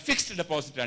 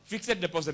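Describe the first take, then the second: First: The s and d join without a vowel. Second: An extra vowel is inserted before the d. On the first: The speaker calls it right. "ഫിക്സ്ഡ് deposit ആണ് ശരി" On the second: The speaker calls it wrong. "ഫിക്സഡ് deposit അല്ല"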